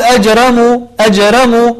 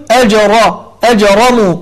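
First: أجرموا with a thin ر; wrong light r. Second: أجرموا with a thick, emphatic ر; heavy r. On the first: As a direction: say أجرموا with the ر thinned, the mistake. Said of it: "هذا خطأ". (ترقيق الراء خطأ في أجرموا) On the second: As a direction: darken the ر in أجرموا. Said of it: "يجب علينا أن نفخم الراء". (تفخيم الراء في أجرموا) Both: Shown as a demonstration.

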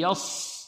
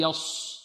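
First: Soft يص with heavy ص and relaxed lips; emphatic ص in يص, no lip rounding; thick s without pursing on يص; correct heavy s. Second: يص with the lips pursed; wrong rounded s. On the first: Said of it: "بل". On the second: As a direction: mistaken rounded whistle on the ص of يص. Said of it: "ولا نقول". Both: Shown as a demonstration.

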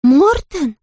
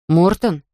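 First: High, emphatic astonished cry; big high-pitched surprise; chorus of exclamation. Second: Put-on understated surprised boy, not raised in pitch; boy's exclamation. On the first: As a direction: exclaim it as a whole chorus of children would. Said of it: "воскликнули все хором". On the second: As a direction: ask the name in mild, falling surprise. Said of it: "воскликнул Мартин". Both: A narrator's reading.

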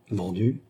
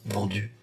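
First: Understated surprise with rising end; startled question. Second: Soft, understated repeat of "Vendu"; uneasy echo. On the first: Queen turning round at news of the sale, startled question. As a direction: ask "Vendu?" in mild disbelief. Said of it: "s'écria la reine en se retournant". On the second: Lady companion echoing the queen's alarm, uneasy echo. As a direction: echo it softly, a touch of worry. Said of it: "inspira de l'inquiétude". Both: A narrator's reading.

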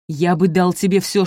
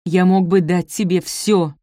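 First: Loud, rushing offer; impetuous. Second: Slow, loud, every word hammered; furious insistence. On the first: A narrator's reading. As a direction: press the offer on her hard. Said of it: "порывисто продолжал Бенедикт". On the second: Acted. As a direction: hammer the offer home in anger. Furious lover repeats his offer.

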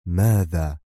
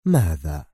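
First: Said in the usual way. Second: Lower, distant repeat of ماذا; ماذا dropped low like an echo. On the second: A narrator's reading. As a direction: let ماذا fade as a far-off echo.

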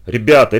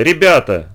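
First: Louder, begging call from another room; pleading call. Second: Pleading call. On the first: Mother begs the noisy boys from the next room, pleading. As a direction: plead with them to stop. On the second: Mother begs the boys again from the next room, pleading. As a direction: plead once more, wearily. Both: Acted. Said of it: "взмолилась из другой комнаты мать".

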